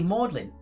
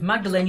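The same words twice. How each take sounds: First: The name is said with two syllables. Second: The name is said with three syllables. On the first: The speaker calls it right. "but it's actually Magdalene" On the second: The speaker calls it wrong. "I thought it was Magdalene University"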